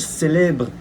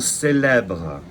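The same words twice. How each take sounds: First: The vowel before 'bre' is closed, jaw high. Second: The vowel before 'bre' is open, jaw lowered. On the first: The speaker calls it wrong. "you wouldn't say je préfère or je célèbre" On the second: The speaker calls it right. "You drop your jaw, you say uh, on célèbre"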